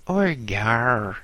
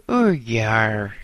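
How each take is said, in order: First: Cockney "Oor ye are" repeated, falling and flat. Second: Louder, bored Cockney demand. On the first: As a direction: say it again, wearily falling. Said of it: "she repeated". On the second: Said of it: "she said". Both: Acted.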